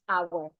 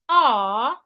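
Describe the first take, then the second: First: It is full, sounding like 'hour'. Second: It is reduced, sounding like 'ar'.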